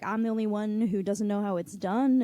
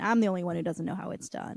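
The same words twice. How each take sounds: First: It ends rising, like a question. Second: It ends falling, like a statement.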